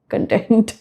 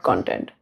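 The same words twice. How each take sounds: First: The stress is on the second syllable. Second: The stress is on the first syllable. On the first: It means feeling satisfied. The speaker calls it right. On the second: It refers to material made for publishing. The speaker calls it wrong.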